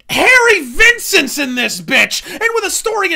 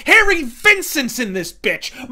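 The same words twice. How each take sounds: First: Over-the-top booming shout; full-on hype yell. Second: Loud, drawn-out hype; slow booming hype call; excited shout. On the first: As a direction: scream it out even bigger. Repeated louder hype. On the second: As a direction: bellow it like a ringside announcer. Hyped reveal of serial cast. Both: Real, not acted.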